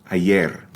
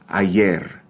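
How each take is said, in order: The two takes are said the same way.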